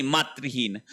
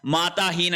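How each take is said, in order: First: मातृहीन with "tri" in the middle; correct form. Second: माताहीन with "taa" in the middle; wrong form. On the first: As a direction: say "maa-tri-heen" for मातृहीन. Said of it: "माताहीन नहीं होता है". (मातृहीन में बीच में "तृ") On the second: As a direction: say "maa-taa-heen" for माताहीन. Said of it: "माताहीन नहीं". (माताहीन में बीच में "ता") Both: Shown as a demonstration.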